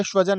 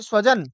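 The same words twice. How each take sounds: First: "स्वजन" said with sh, as shva-jan; hushed sh opening "स्वजन"; palatal sha. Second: "स्वजन" begun with a clear s; "स्वजन" as sva-jan; dental sa. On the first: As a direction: swap the s of "स्वजन" for sh. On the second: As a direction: say "स्वजन" with s, not sh. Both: Shown as a demonstration. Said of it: "सकार और शकार".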